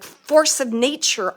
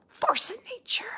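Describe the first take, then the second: First: Said in the usual way. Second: Whispered, quicker imitation of his words; relayed whisper. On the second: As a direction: whisper it as if passing on his message. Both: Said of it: "like he's saying that".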